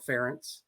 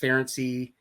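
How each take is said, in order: First: The name ends in an 's' sound, rhyming with parents. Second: The name ends with an added 'ee' syllable. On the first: The speaker calls it right. "it rhymes with parents, so Ference" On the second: The speaker calls it wrong. "it's been said a whole bunch of ways"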